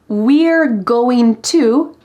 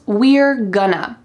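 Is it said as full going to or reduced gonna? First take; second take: going to; gonna. First: It is said as full going to. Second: It is reduced to gonna. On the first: "going to" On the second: "becomes we're gonna"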